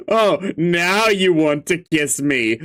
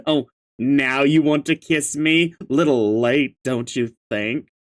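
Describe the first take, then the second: First: Said in the usual way. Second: Character voice. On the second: Acted. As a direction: read it in character, pitched slightly down. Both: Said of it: "gotta read this in the correct voice".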